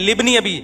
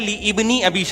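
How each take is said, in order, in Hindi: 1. शुरुआती स्वर गिर जाता है, और li जुड़कर libni बन जाता है। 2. ibni का शुरुआती स्वर अलग से बोला जाता है। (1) "ये अलिफ साइलेंट है" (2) "सही है ली इब्नी अबी शैबा"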